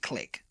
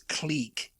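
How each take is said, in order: First: It sounds like the click of a pen. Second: It sounds like the end of fabrique. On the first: "the way that an English speaker would pronounce it" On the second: "it's like fabrique. It's French"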